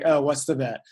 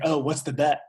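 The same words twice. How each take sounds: First: It sounds wary, expecting disappointment. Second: It sounds casual and curious.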